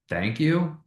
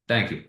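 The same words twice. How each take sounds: First: It is said with a questioning, uncertain tone. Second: It is said with a flat, neutral tone. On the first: "which is kind of questioning" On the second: "which is kind of neutral"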